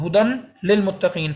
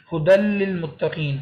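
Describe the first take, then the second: First: ہدن with a clear final n before للمتقین; sounded noon. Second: Slow ہدل للمتقین with a long doubled l, no n; lam only. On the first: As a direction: keep ہدن separate, its n fully sounded. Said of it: "ہدن اصولاً بنتا تھا". (ہدن کا نون صاف ادا کریں) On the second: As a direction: drop the n, merge ہدل للمتقین on l. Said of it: "صرف لام کی". (ہدل للمتقین میں نون ختم، صرف لام پڑھیں) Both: Shown as a demonstration.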